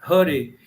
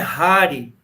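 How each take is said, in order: First: The first vowel is short and closed. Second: The first vowel is open and full. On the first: The speaker calls it right. "por isso a gente diz" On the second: The speaker calls it wrong. "E não é Hari"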